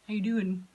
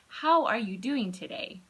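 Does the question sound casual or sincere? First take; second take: casual; sincere. First: It is tossed off casually, not awaiting answer. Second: It is asked sincerely, with genuine interest.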